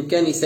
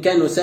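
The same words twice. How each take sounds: First: كنس with i after nun: kanisa; kasra on nun. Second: كنس with u after nun: kanusa; damma on nun. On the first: Teacher contrasting verb forms meaning return and hide, كنس as kanisa. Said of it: "بكسر النون". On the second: Teacher contrasting verb forms meaning return and hide, كنس as kanusa. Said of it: "بضم النون". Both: Shown as a demonstration.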